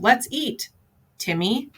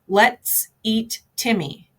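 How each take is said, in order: First: There is a pause before Timmy. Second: There is no pause before Timmy.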